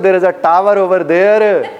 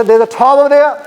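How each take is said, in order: First: Slow Pakistani English, every r sounded in "tower over there"; Pinglish accent. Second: British accent, "tower over there" with silent r's, higher and louder; English, not Pinglish. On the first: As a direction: spell out each word in a Pinglish accent with rolled r's. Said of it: "अगर मैं पिंग्लिश में बोलूं". (पिंग्लिश लहजा, हर र साफ़ और धीरे) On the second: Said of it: "मैंने पिंग्लिश नहीं बोली थी". (अंग्रेज़ों वाला लहजा, र की आवाज़ के बिना) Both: Shown as a demonstration.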